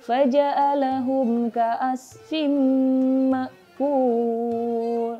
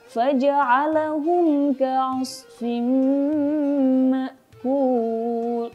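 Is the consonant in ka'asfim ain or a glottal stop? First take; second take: glottal stop; ain. First: The ain is replaced by a glottal stop. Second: The ain is pronounced as a throat ain. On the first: The speaker calls it wrong. "membaca ain tertukar dengan hamzah" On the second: The speaker calls it right. "harusnya bacaannya itu adalah"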